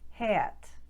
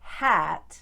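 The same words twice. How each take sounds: First: The vowel is eh with a small glide. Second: The vowel is a plain short a sound.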